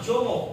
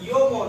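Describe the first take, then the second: First: The name begins with a J sound. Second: The name begins with a Y sound. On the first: The speaker calls it wrong. "not jomo" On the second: The speaker calls it right. "we have to pronounce as a yomo"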